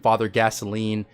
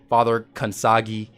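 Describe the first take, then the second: First: The name is said like the word gasoline. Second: The name is said like kan-sah-gee. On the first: "all kinds of weird pronunciations" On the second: "all kinds of weird pronunciations"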